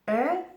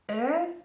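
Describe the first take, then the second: The two takes are said the same way.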